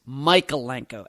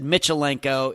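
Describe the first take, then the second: First: The first part sounds like Michael. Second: The first part does not sound like Michael. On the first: The speaker calls it right. "It's like Michael and then Enko put together" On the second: The speaker calls it wrong. "I think we said Michalenko"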